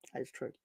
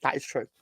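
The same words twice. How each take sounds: First: Agreeing again under his breath; soft repeat. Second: Said in the usual way. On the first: Real, not acted. Host quietly agreeing with a listener's tweet, murmured. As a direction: murmur it to himself. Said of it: "repeats the agreement more softly". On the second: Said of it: "agrees with a listener's point".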